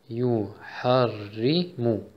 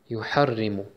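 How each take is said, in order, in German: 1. Das Wort wird langsam gesagt. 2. Das Wort wird schnell gesagt. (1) "macht es langsamer" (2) "und dann nachher immer schneller"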